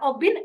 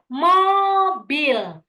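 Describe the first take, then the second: First: The first m is dropped and l becomes n. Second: The word is said fully with m and l. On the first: This is how a child with delayed speech says it. The speaker calls it wrong. "ketika mereka bilang obin" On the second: This is the model an adult should give the child. The speaker calls it right. "Oh, mobil ya"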